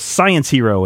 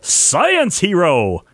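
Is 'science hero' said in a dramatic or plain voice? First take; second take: plain; dramatic. First: It is said in an ordinary reading voice. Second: It is said in a loud, dramatic put-on voice. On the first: The speaker calls it wrong. "which I didn't" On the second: The speaker calls it right. "say it in the for science voice"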